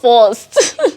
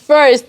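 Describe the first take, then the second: First: The vowel sounds like 'or'. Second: The vowel sounds like 'ir'. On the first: The speaker calls it wrong. "it's not O R" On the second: The speaker calls it right. "there's I R"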